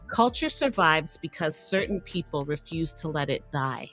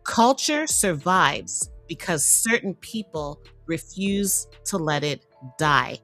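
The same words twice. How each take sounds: First: It is said at normal volume. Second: It is said more loudly.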